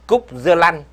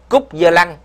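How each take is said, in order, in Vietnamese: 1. Đoạn này được đọc theo giọng miền Bắc. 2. Đoạn này được đọc theo giọng miền Nam. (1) "phiên âm qua giọng Bắc" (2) "phiên âm thì kiểu miền Nam"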